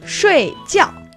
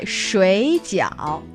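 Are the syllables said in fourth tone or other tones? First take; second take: fourth tone; other tones. First: Both syllables are said in the fourth tone. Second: The syllables are not in the fourth tone. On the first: It means to sleep. "fourth tone would be sleep" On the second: It means boiled dumplings. "that's the dumpling"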